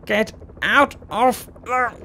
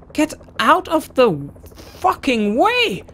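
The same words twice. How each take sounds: First: High, slowed shout; rising angry shout; angry yell. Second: Real exasperated scream; furious shout. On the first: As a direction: yell at them to clear the way. Yelling at blocking riders. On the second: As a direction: scream at them to move. Yelling at blocking riders again. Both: Real, not acted.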